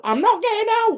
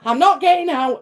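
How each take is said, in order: First: Much higher, squeakier repeat of NOT; higher whine. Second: Whiny refusal. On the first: Refusing to leave the car, much higher whine. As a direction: push the pitch way up on the second refusal. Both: Retold or imitated. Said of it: "I'd be like".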